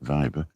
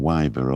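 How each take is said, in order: First: The name begins with a V sound. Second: The name begins with a W sound.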